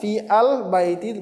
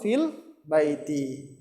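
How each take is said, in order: First: The article is said as a separate syllable. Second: The article is joined directly onto the preceding word. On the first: The speaker calls it wrong. "Bukan fi al baiti" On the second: The speaker calls it right. "bacanya langsung fil baiti"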